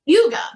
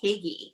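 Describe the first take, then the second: First: The word is said like 'hooga'. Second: The word is said like 'higgy'. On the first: The speaker calls it right. "how to actually pronounce it, and it's called Huga" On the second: The speaker calls it wrong. "I called it Higgy until I looked up for this show how to actually pronounce it"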